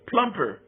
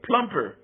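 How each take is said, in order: First: The middle consonant sounds like a P. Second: The middle consonant sounds like a P.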